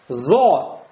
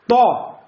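First: The consonant is a buzzing z-like sound. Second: The consonant is a voiceless t-like stop. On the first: "Если мы оставим слишком большую щель" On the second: "Слишком приложил – будет то"

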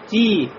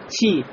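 First: The t is said without a breathy hiss. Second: The t is said with a breathy hiss. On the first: The speaker calls it right. "Хамс устраняется... Шипений не будет. а говорим ти" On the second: The speaker calls it wrong. "Не говорим ти"

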